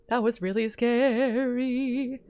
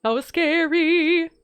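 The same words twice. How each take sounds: First: Shaken slowly. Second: Shaken. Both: Real, not acted.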